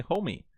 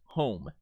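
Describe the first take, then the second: First: Homie with the final E sounded as "ee"; homie, two syllables ending in a clear "ee"; wrong pronunciation. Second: Said in the usual way. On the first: Shown as a demonstration. Teacher shows students the mistake, mispronounced homie. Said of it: "You don't say homie". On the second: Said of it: "you don't actually sound that E".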